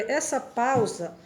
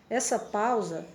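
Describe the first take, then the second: No difference in how they are said.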